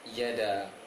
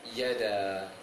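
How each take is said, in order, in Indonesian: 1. Vokalnya diucapkan pendek. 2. Vokalnya diucapkan pendek.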